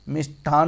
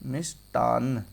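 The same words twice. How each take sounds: First: Said in the usual way. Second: मिष्टान in two parts, मिष् and टान; correct form, broken up. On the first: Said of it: "नहीं होता". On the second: Shown as a demonstration. Teacher showing students the right word, broken up. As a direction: pause inside मिष्टान before an unaspirated टान. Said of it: "कैसे?".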